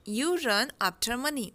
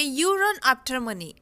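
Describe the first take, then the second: First: Very slow, softer, falling echo; slow soft repeat. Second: Very slow, each word separate; slow dictation. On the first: Teacher echoing the line softly for learners. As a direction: repeat it gently and slowly. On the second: Teacher modelling the sentence for learners, slow. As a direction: model it slowly for the class. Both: Shown as a demonstration. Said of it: "तो इसे हम बोलेंगे".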